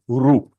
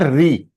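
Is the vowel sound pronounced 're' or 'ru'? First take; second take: ru; re. First: The syllable is pronounced with a 'u' vowel. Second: The syllable is pronounced with an 'e' vowel. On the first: This is how it is said in Sanskrit. The speaker calls it right. "if it is Sanskrit pronunciation, it is Ru" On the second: This is how it is said in Hindi. The speaker calls it wrong. "Re is a wrong pronunciation. It is a Hindi pronunciation"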